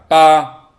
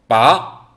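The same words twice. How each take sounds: First: The pitch stays level and is held long. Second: The pitch rises toward the end. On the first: It means eight. "소리를 옆으로 약간 길게 쭉 소리를 내면 됩니다" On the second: It means to pull out. "끝을 올려서 발음하시면 됩니다"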